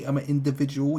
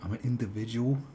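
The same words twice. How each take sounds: First: Mock meme line, louder. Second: Mock meme line. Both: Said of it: "It was like".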